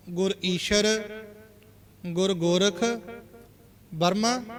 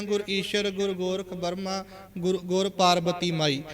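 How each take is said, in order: First: Said in the usual way. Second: ਗੁਰ ਈਸ਼ਰ read as the usual recitation, ਪਾਰਬਤੀ ਮਾਈ split off at the end; common wrong reading. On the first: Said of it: "ਅਸੀਂ ਜਪਜੀ ਸਾਹਿਬ ਦੀ ਬਾਣੀ 'ਚ ਪੜ੍ਹਦੇ ਹਾਂ". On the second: Shown as a demonstration. Teacher showing the common way people read the line. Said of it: "ਅਸੀਂ ਆਮ ਉਚਾਰਨ ਕਰਦੇ ਹਾਂ".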